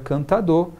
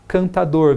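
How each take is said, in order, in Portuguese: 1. O R final é omitido. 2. O R final é pronunciado.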